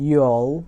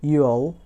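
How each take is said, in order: First: It is said as one contracted syllable. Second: The same.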